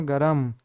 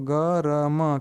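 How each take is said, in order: First: Said in the usual way. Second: "गरम" split into ग, र, म; sounded out. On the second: Shown as a demonstration. Teacher showing learners how to read गरम, "गरम" sounded out in parts. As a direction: sound out "गरम" letter by letter, each held. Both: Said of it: "क्या पढ़ेंगे?".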